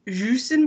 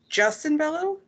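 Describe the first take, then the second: First: The first word is said like French 'jus'. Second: The first word is said the English way. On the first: The speaker calls it wrong. "like au jus" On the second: The speaker calls it right. "but it's Justin Bello"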